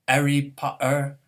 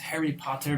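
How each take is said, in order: First: The H and T become glottal stops. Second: The H and T are pronounced plainly.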